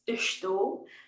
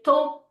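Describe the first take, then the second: First: Every syllable of the word is pronounced clearly. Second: The word is cut down to one short syllable. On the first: "if we were enunciating everything" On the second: "They're just going to say tô"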